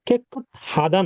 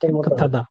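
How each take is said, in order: First: A plain t is followed by a separate h. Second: The t and h merge into aspirated th. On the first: The speaker calls it wrong. "এটার উচ্চারণ কিন্তু কেকুত হাদা না" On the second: The speaker calls it right. "তার মতো উচ্চারিত হবে কেকুথাদা"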